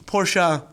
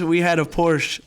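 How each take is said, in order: First: Porsche said with a drawn final uh, Porsh-uh. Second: Said in the usual way. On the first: Shown as a demonstration. Friend repeating Porsche the fancy way, Porsh-uh. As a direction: give Porsche an extra uh syllable at the end. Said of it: "are you still calling it a Porsche or are you calling it a Porsche". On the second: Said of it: "are you still calling it a Porsche".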